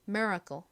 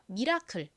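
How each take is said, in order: First: It is said with an American accent. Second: It is said with a Korean accent. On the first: "미국식 발음으로는 씨엘이를 좀 세게 발음하여" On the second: "기적 한국식 발음 해볼게요"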